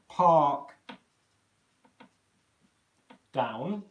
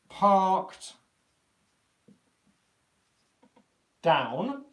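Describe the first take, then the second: First: There is a shorter hold before 'down'. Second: There is a longer hold before 'down'. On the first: It is happening in the present. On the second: It happened in the past.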